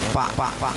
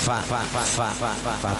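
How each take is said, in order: First: The consonant is a closed lip pop, like p. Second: The consonant lets a little breath out, like f. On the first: "nah itu kurang fasih" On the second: "artinya ada keluar nafas sedikit"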